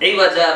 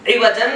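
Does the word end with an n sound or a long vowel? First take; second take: long vowel; n sound. First: The word ends with a long a vowel. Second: The word ends with an n sound. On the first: The speaker calls it right. "इवजा बोल के रुकना है" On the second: The speaker calls it wrong. "इवजन नहीं है"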